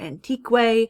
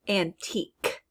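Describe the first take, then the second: First: The QU is said as kw. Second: The QU is said as a plain k. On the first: The speaker calls it wrong. "We don't say antique" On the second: The speaker calls it right. "It just makes the k sound"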